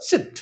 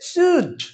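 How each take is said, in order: First: The word is said in its reduced, weak form. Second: The word is said in its full, strong form. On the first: "আর উইক form হলে কি হবে?" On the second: "strong form হলে কি হবে?"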